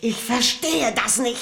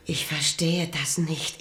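First: Higher, louder, more urgent; agitated repeat. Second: Said in the usual way. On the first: Acted. Queen repeating it to the king in agitation. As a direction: push the line out in rising disbelief.

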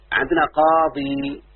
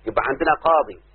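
First: Teacher lingering on قاضي for the student; slow and drawn out. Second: Said in the usual way. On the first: Shown as a demonstration. Teacher showing the word to his student, slow and drawn out. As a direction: stretch قاضي out slowly, each syllable clear. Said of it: "انتبه يا بنتي". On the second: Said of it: "فنفس الكلام الذي قلناه".

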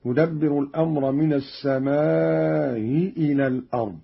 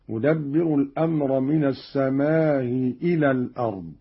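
First: السماء with a long aa held before a softened hamza; eased hamza with madd. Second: السماء with a short aa before a softened hamza; eased hamza with qasr. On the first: Teacher shows Qalun's reading, eased hamza with long madd. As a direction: stretch the aa of السماء, then glide over its hamza into إلى. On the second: Teacher shows Qalun's second way, eased hamza with short vowel. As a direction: keep the aa of السماء brief, gliding over its hamza into إلى. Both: Shown as a demonstration. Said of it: "بتسهيل الهمزة الأولى مع المد والقصر".

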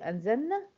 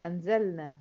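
First: أنزلنا said without the L, straight into a long N; lam dropped. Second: Said in the usual way. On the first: Shown as a demonstration. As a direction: drop the L from أنزلنا. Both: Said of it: "أشيل بقى اللام دي".

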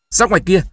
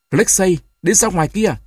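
First: Raised, high command; firm order. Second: Grandfather's hoarse order, pitched up; hoarse command. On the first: Grandmother orders the boy out, loudly. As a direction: send the boy out firmly. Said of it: "Bà tôi ra lệnh cho tôi". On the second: Grandfather orders the boy out, hoarse. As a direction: rasp out the order to leave. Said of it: "nói giọng khàn khàn". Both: A narrator's reading.

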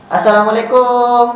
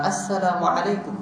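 First: Assalamualaikum said slowly and a touch higher, every syllable clear; careful greeting. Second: Said in the usual way. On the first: Shown as a demonstration. Preacher showing the congregation the proper greeting, slowly. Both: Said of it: "Mengucapkan salam ini betul-betul pula".

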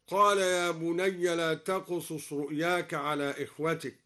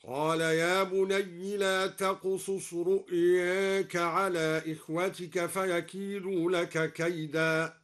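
First: Said in the usual way. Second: رؤياك recited with its alif slightly leaned toward e, slow; slight imala. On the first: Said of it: "هكذا". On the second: Shown as a demonstration. Teacher recites al-Duri's reduced imala of رؤياك, slow chant. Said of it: "وقلل أيضًا لفظ رؤياك هكذا".

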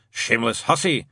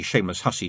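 First: Lightly voiced muttering grumbler; Shadwell. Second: Said in the usual way. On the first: A narrator's reading. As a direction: mutter the insult in character. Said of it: "Shadwell would mutter". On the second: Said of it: "to allow the shameless hussy".

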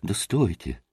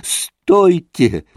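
First: Low, soft first call to wait; restrained call. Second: Raised, drawn-out call; shouting over others. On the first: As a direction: say it under the noise, lower and softer. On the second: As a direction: strain to be heard over the boys. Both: A narrator's reading. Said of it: "силился всех перекричать Красоткин".

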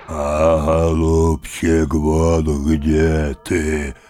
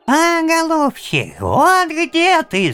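First: Slow, drawn-out growly roar; roaring bear. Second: Very high, loud squeak; squeaking bird beak. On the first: Bear behind the tree mocking grandfather, slow roar. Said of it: "заревел медведь". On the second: Bird's beak mocking grandfather, high squeak. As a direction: squeak it like a beaked creature. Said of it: "запищал птичий нос". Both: Acted.

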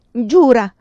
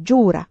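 First: High, very loud shout; shouted demand. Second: Loud, hard demand; harsh insistence. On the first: Vinca crying out to Pilar to swear, shouting. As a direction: shout it as an urgent order. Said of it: "le gridò Vinca". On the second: Vinca insisting that her friend swear, harsh. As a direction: press it firmly and loudly. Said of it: "insistere duramente". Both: A narrator's reading.

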